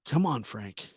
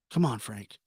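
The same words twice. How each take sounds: The two takes are said the same way.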